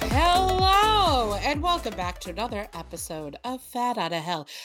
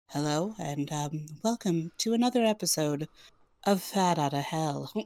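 First: It is said in an ordinary, casual speaking voice. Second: It is said in a smooth, put-on radio-announcer voice.

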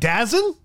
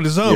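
First: It is said as one word, 'Dazen'. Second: It is said as two words, 'the Zone'. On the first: The speaker calls it wrong. "we didn't even know how to pronounce the Zone? We call it, we were like" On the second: The speaker calls it right.

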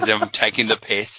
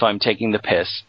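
First: It is said in a put-on accent. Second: It is said in the speaker's normal voice.

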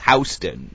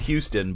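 First: It is said the local New York way. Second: It is said the usual way the spelling suggests. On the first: "but it's Houston, you know, in New York" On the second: "It's spelled Houston"

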